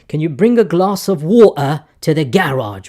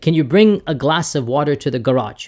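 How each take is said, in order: First: It is said in a British accent. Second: It is said in an American accent.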